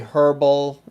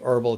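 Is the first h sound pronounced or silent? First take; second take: pronounced; silent. First: The word begins with an audible h sound. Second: The word begins with no h sound. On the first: "some people may say herbal" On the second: "technically, from what I've heard, it's really herbal tea. Uh, so it's like you drop it's like the H is silent"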